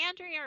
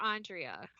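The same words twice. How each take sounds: First: "Andrea" said AN-dree-uh; first syllable of "Andrea" rhymes with "can". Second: "Andrea" said AHN-dree-uh; first syllable of "Andrea" sounds like "on". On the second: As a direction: say "Andrea" with an open "ah" at the start. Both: Shown as a demonstration. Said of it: "is it Andrea or Andrea".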